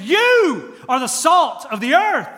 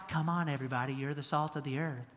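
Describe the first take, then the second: First: YOU drawn out, high and loud; emphatic YOU. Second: Soft, low, feeble voice; meek, frail Jesus. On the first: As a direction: hit "You" hard, slow and forceful. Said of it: "here is emphatic. He's saying". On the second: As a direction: play a skinny, frail Jesus, much lower and softer. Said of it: "that's kinda how we think about Jesus". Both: Acted.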